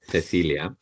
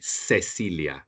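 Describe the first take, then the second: First: The first c is said as th. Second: The first c is said as s. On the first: This is how it is said in Spain. "in Spanish we say Cecilia, Cecilia, we say the th" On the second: This is how it is said in South America. "In South America they would say Cecilia, like an S sound"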